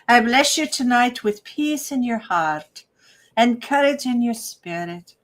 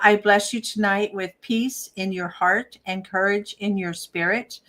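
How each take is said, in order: First: It is said in an attempted Irish brogue. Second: It is said in the speaker's normal accent.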